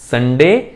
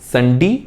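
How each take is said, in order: First: The last syllable ends with a 'day' sound. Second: The last syllable ends with a 'dee' sound. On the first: "दोनों तरीके से इसकी pronunciation होती है" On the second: "डे की बजाय डी भी बोलते हैं"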